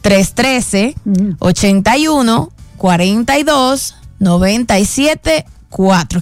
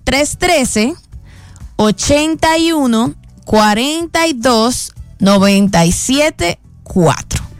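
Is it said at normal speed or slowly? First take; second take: normal speed; slowly. First: It is said at normal speed. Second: It is said slowly.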